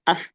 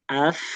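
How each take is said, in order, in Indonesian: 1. Bunyi terakhir terpotong mendadak. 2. Bunyi terakhir dipanjangkan dan mengalir halus. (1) "Kalau disentak jadinya as" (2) "tapi as, if, us gitu"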